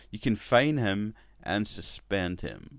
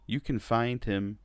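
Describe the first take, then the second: First: "fine" said with no d on the end, slow and deliberate; "fine" spoken cleanly as fine, no d; corrected to fine. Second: "find" said with a clear final d, in the executive voice; "find" spoken as the word find, d audible; misspoken find. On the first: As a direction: correct yourself to "fine", a little slower. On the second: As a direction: slip and say "find" with the d sounding. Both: Acted. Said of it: "a poor impression".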